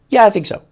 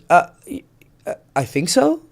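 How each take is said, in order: First: It is said in a confident, steady way. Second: It is said in a hesitant, faltering way.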